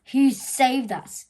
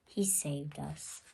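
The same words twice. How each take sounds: First: Slow, loud bellow. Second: Soft slow whisper. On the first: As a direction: boom it out grudgingly. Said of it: "the ant bellowed". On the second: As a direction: breathe it out grudgingly. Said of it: "ant whispered". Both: A narrator's reading.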